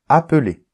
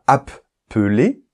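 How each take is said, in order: First: The middle p sound is short, single. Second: The middle p sound is held long, doubled. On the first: The speaker calls it right. "on dit appeler. Exactement comme s'il y avait A P E L E R" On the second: The speaker calls it wrong. "on ne dit pas appeler"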